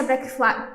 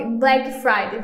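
First: Fumbled "Black Fri-", breaking off mid-word; tongue-tied slip. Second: "Black Friday" said slowly and carefully; corrected pronunciation. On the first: Host stumbling over the campaign's name, tongue-tied. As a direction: trip over "Black Fri-" and stop short. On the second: Host fixing her own slip, careful corrected pronunciation. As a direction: take "Black Friday" slowly, each word complete. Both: Real, not acted. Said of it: "tô trocando as bolas aqui".

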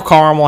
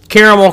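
First: Caramel said as CAR-mel; alternative pronunciation. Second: Caramel said as CARE-uh-mel; three-syllable pronunciation. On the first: Offering viewers the other way to say it, caramel as CAR-mel. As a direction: say caramel with an opening "car" sound. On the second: Offering viewers one way to say it, caramel as CARE-uh-mel. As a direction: say caramel with an opening "care" sound. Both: Shown as a demonstration. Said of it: "however you pronounce it".

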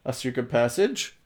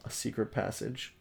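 First: "A secret passage?" lifted into a questioning rise; asked as a question. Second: Said in the usual way. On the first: Shown as a demonstration. Reader redoing Batman's line as a question, "passage" rising questioningly. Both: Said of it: "he says as a question".

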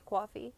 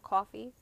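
First: "coffee" with a W glide, like "kwaw-fee"; accented coffee. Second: "coffee" with a clean K, no W glide; toned-down accent. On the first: Speaker showing friends the word the accent slips into, accented "coffee". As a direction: say "coffee" as "quawfee", in the native accent. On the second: Speaker correcting an accent slip, carefully neutral "coffee". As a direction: say "coffee" plainly as "kaw-fee". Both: Shown as a demonstration. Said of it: "trying to tone down my accent".

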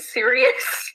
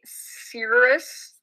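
First: Sirius said as "SEER-ee-us", questioning; corrected pronunciation. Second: Sirius said as "Cirrus"; mispronounced Sirius. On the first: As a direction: try out "Sirius" in three syllables, rising. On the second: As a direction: say "Cirrus", dropping the middle vowel of Sirius. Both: Real, not acted. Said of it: "that's how you say it".

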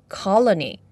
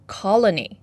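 No difference in how they are said.

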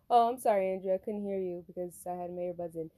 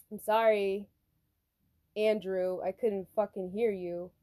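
First: Polite apology. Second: Deliberate, halting apology with an edge; irritated apology. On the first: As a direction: apologize smoothly, without the edge. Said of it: "but I said". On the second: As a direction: apologize as if fed up with him. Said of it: "I didn't say it like that". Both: Retold or imitated.

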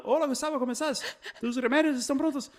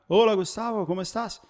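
First: A higher, chirpy mock Spanish greeting with a laugh; pharmacist's Spanish greeting. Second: Put-on a light Spanish accent on a friendly phone greeting. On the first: Pharmacy clerk calls every month, greeting him in higher, laughing mock Spanish. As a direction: imitate the pharmacy guy rattling off in Spanish. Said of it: "ele liga e sai falando". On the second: Car salesman phones him, greeting him in a light Spanish accent. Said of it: "Falando em espanhol".

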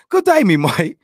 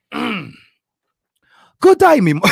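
First: A slightly steadier British accent on "Good day, me mate"; retry the British accent, still hammed-up; a jokey British accent on the retry; second try British accent. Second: A loud, high, hammed-up British accent on "Good day, me mate"; first clumsy stab at a British accent; bad British accent. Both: Shown as a demonstration. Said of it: "I have an awesome British accent".

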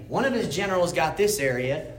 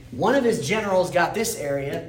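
The two takes are said the same way.

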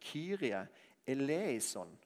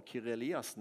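First: "Kyrie eleison" said carefully as e-le-i-son; "Kyrie eleison" given in full, the proper Greek prayer; correct Kyrie eleison. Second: "Kyrie Eliassen", quick, eleison turned into the surname Eliassen; mock the common mishearing "Kyrie Eliassen" as a name; mistaken Kyrie Eliassen. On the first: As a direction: set "Kyrie eleison" right, each syllable clear. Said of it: "men poenget er at det er Kyrie eleison". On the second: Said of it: "vi tror vi roper på Kyrie Eliassen". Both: Shown as a demonstration.

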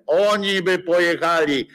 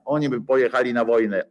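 First: "Oni" hit higher and louder; indignant louder "Oni" at the start; emphatic repeat. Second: Said in the usual way. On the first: Shown as a demonstration. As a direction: punch "Oni by pojechali" with scorn.

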